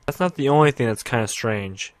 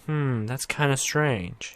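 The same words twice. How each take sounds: First: Said in the usual way. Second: Slow, hushed, mildly suspicious hum; suspicious musing. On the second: Retold or imitated. Everyone puzzling over the blonde girl, slow suspicious murmur. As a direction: drag it out like you smell a secret. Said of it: "everyone's like".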